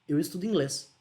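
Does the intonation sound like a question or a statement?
statement. It is said with statement intonation. It states a fact. "Afirmação"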